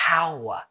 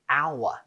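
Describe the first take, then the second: First: The word starts with an audible h sound. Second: The word starts with a vowel, no h sound. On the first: The speaker calls it wrong. "not hour" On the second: The speaker calls it right. "We say hour"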